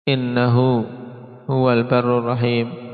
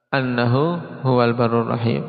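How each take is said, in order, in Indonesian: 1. Kata pertama dimulai dengan vokal 'i'. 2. Kata pertama dimulai dengan vokal 'a'. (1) "Dibaca innahu dengan kasrah" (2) "kalau dibaca dengan fathah"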